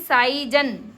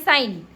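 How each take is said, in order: First: The word is said with a g sound before n. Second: The word is said without any g sound. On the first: The speaker calls it wrong. "साई जन जन जन क्यों नहीं पढ़ते हम" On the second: The speaker calls it right. "हम हमेशा यही पढ़ते हैं साइन"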